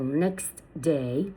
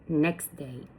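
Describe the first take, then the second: First: The t sound in next is clearly heard. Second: The t sound in next is dropped.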